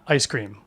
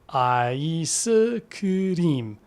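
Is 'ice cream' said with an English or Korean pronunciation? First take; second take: English; Korean. First: It is said with an English pronunciation. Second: It is said syllable by syllable, Korean style. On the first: The speaker calls it wrong. "not ice cream" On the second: The speaker calls it right. "focus on the Hangul spelling. Break it down syllable by syllable"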